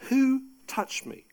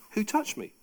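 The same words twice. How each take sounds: First: "Who touched me?" with a slower, much higher WHO; Jesus pressing the crowd, calling out "Who touched me?" higher and slower; urgent searching repeat. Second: Said in the usual way. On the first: Shown as a demonstration. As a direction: ask "Who touched me?" again, drawn out and pitched up on WHO.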